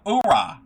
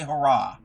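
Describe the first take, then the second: First: "hoorah" with a silent H, loud. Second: Said in the usual way. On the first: Shown as a demonstration. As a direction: drop the H in "hoorah", starting on the vowel. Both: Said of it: "Don't pronounce the H".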